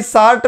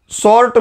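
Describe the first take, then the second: First: "शार्ट" as shaart, vowel like in "art"; colleague's शार्ट. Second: "शॉर्ट" as shawrt, lips rounded; standard शॉर्ट. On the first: Retold or imitated. Teacher quoting how a colleague says short, "शार्ट" with aa. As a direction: say "शार्ट" with a long open aa. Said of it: "Harshvardhan भाई शार्ट में बोलते हैं". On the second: Shown as a demonstration. Teacher restating the colleague's word, "शॉर्ट" with a rounded vowel. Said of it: "जिसको हर्षवर्धन भाई शार्ट में बोलते हैं".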